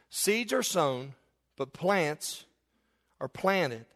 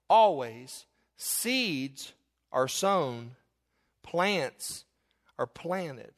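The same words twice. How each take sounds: First: "Seeds are sown" stretched very slow, then "plants" and "planted" each falling; slow, deliberate stress. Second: Seeds drawn out low and slow, then each phrase set apart by pauses; slow emphatic quote. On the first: Preacher repeating the point for his congregation, slow and stressed. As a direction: pause on each phrase so the congregation can process it. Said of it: "process that for a minute".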